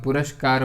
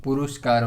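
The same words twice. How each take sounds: First: पुरस्कार with s before k; right form puraskar. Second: पुरुषकार with extra u and sh; wrong form purushkar. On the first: Teacher gives the correct word पुरस्कार. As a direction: say पुरस्कार clearly, not पुरुषकार. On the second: Teacher contrasts the wrong form पुरुषकार. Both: Shown as a demonstration. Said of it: "ना कि पुरु".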